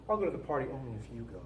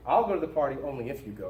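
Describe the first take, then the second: First: Light, offhand and quick, a little softer; innocuous voice. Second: Said in the usual way. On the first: Shown as a demonstration. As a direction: toss it off as if it meant nothing. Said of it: "kind of an innocuous voice". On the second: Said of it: "we can even kinda do that in kind of an innocuous voice".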